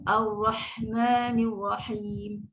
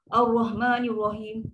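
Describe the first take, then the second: First: The letters are articulated fully and precisely. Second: The letters are articulated loosely and carelessly. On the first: The speaker calls it right. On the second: The speaker calls it wrong. "kita baca macam tu je"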